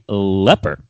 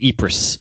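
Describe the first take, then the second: First: The name begins with an L sound. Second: The name begins with a vowel sound. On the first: This is the local pronunciation. The speaker calls it right. "I believe the proper pronunciation is actually leper" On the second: This is how the spelling suggests it is said. The speaker calls it wrong. "you would think it would be pronounced Ypres"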